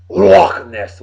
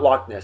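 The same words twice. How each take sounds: First: Loch ends in a breathy throat sound. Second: Loch ends in a hard k sound. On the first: The speaker calls it right. "It's pronounced Loch Ness. Gotta say it right" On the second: The speaker calls it wrong. "it's not Loch Ness"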